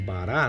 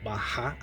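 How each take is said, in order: First: The consonant is said plainly, not from the throat. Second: The consonant is said gutturally, from the throat. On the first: "alguns pronunciam bará, né? A pronúncia uh, aceita também" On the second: "com essa vocalização uh, gutural"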